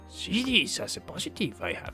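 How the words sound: It is said in an imitated Yoda voice.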